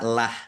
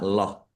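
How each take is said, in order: First: The L and vowel sound light and clear. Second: The L and vowel sound heavy and dark. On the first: "tipis itu dibaca lah" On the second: "kalau dibaca tebal itu dibaca loh"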